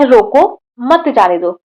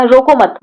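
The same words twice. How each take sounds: First: रोको, then a clear break before मत जाने दो; pause after रोको. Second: रोको मत run together as one phrase; pause after मत. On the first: Teacher showing a comma after रोको, pause after रोको. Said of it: "एक कॉमा लगाते हैं". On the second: Teacher moving the comma after मत, रोको मत said together. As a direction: join मत onto रोको, break only after it. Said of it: "कामों को यहाँ पर लगाएं". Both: Shown as a demonstration.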